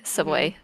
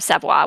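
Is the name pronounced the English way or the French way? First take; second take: English; French. First: The name is said with an English pronunciation. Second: The name is said with a French pronunciation. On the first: The speaker calls it wrong. "I'm anglicizing it" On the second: The speaker calls it right. "would be the actual correct way to pronounce it"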